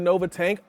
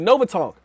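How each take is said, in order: First: The last word has the vowel of 'tank'. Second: The last word has the vowel of 'tonk'. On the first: The speaker calls it wrong. "I'm acting like a newbie" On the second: The speaker calls it right. "that's the way we say it"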